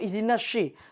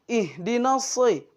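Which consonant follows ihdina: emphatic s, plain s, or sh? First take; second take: sh; emphatic s. First: The consonant is a sh sound. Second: The consonant is a heavy, emphatic s sound. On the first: The speaker calls it wrong. "atau ihdinas syi" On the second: The speaker calls it right. "tapi ihdinas soy"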